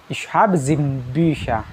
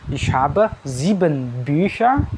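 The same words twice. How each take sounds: First: The sentence is said rather quickly. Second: The sentence is said slowly and carefully. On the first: "Kalau agak cepat" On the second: "bisa juga kalau lambat"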